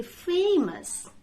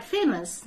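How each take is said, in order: First: "famous" with long AY, FAY-mus; correct pronunciation. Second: "famous" with short first vowel, FEM-us; old mispronunciation. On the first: Teacher corrects old mistake, "famous" said FAY-mus. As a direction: stretch the first beat of "famous". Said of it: "it will be famous". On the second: Teacher recalls own mistake, "famous" said FEM-us. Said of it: "I used to say this word". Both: Shown as a demonstration.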